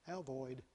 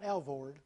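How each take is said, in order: First: The second syllable sounds like 'oid'. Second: The second syllable sounds like 'ord'. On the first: The speaker calls it right. "Do you know you pronounce that right?" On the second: The speaker calls it wrong. "Not Alvord"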